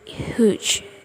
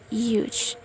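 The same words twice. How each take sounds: First: The word begins with an H sound. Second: The word begins with a Y sound. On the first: The speaker calls it wrong. "not huge" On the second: The speaker calls it right. "like Y sounds huge"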